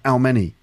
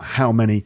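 First: The h sound at the start is dropped. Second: The h sound at the start is pronounced. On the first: This is the Manchester accent. "but how many? ... H dropping" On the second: This is the speaker's own accent. "Not how many"

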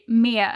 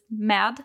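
First: The final D sound is dropped. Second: The final D sound is pronounced. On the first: "you'll most likely say me and you won't really pronounce the D" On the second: "and not just med"

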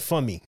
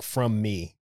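First: The words blur together into one word, fummy. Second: Both words are said clearly and separately. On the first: "It sounded like fummy" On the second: "it didn't sound like from me"

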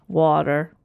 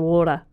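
First: It is said in an American accent. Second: It is said in a British accent. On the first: "And what do they say?" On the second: "but we say water"

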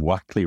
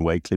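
First: The first vowel is short, as in 'back'. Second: The first vowel is long, as in 'bake'. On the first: This is how the name is usually said today. The speaker calls it right. "they pronounce him Wackley" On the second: The family's descendants say the name this way. The speaker calls it wrong. "rather than Wakely"

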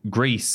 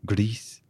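First: The word is said in a plain English accent. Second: The word is said in a put-on foreign accent.

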